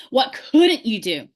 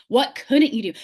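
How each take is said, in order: First: "couldn't" leaned on, lower and drawn out slowly; slow right down and press on "couldn't"; slow emphatic question. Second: Said in the usual way. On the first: Shown as a demonstration. Challenging the crowd, slow emphatic "couldn't". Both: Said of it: "The question is".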